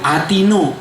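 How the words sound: The final vowel sounds like o. "kayak orang Iran"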